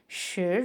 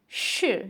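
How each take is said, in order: First: The pitch rises through the syllable. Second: The pitch falls through the syllable. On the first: It means the number ten. "राइजिंग tone का" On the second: It means is or am. "ये falling tone के साथ है"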